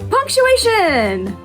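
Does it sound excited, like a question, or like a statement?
excited. It is said with strong, excited emphasis. Something is being emphasized.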